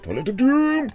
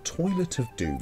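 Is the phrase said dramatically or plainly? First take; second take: dramatically; plainly. First: It is said loudly and dramatically. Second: It is said in a plain, flat way. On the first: The speaker calls it right. "And you have to say it that way" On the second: The speaker calls it wrong. "You can't just say"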